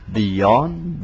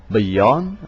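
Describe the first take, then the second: Both takes have the same delivery.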